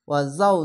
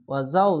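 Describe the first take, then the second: No difference in how they are said.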